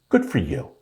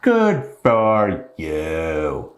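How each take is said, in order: First: Said in the usual way. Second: "Good for you" stretched very slowly and dryly; slow, mocking "Good for you" aimed at Mandy; sarcastic drawn-out good for you. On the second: Shown as a demonstration.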